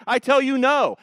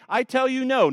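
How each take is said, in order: First: "I tell you no" with a firm falling "no"; Jesus's answer, hit "tell" hard; emphatic no. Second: "I tell you no" repeated, "tell" stressed with a falling close; emphatic no. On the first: Pastor quoting Jesus to his congregation, emphatic and loud. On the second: Pastor repeating Jesus's reply to the crowd, firm and emphatic. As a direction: say it like a verdict. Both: Retold or imitated.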